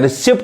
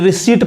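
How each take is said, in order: First: The p sound is pronounced. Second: The p sound is silent. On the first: The speaker calls it wrong. "गलत हो जाएगा" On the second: The speaker calls it right. "पी नहीं पढ़ाएगा"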